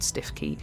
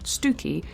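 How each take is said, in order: First: "Stiff Key" said as two words, stiff and key; spelling pronunciation. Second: "Stooky", rhyming with spooky; local pronunciation. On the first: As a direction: say "Stiff Key" just as written. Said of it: "only we pronounce it Stooky". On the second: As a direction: say "Stooky" the Norfolk way, stoo-key. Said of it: "we pronounce it Stooky". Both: Shown as a demonstration.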